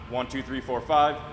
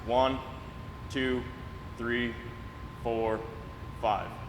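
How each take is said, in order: First: The count is said quickly, rushing the numbers. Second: The count is said slowly, about one number per second. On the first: The speaker calls it wrong. "It's not" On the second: The speaker calls it right. "you take five seconds for that downward phase"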